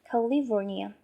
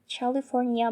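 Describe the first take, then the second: First: The first consonant is a k sound. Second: The first consonant is not a k sound. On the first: The speaker calls it right. "when we pronounce C, it will pronounce as key" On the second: The speaker calls it wrong. "not California"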